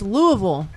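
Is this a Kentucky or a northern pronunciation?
Kentucky. It is said the local Kentucky way.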